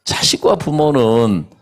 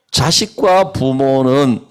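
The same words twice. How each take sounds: First: 부모는 stressed, slow and falling. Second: 자식과 punched, 부모는 slow and falling; stress on 자식과. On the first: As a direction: lean on 부모는 instead. (부모는에 힘을 주어 천천히) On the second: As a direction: lean on 자식과 slowly. (자식과에 힘을 주어 천천히) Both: Shown as a demonstration.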